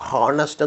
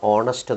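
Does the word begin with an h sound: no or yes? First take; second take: yes; no. First: The word starts with a sounded h. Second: The word starts with a vowel, no h. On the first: The speaker calls it wrong. "ഹോണസ്റ്റ് എന്നല്ല" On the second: The speaker calls it right. "ഓണസ്റ്റ് എന്നാണ് വായിക്കുന്നത്"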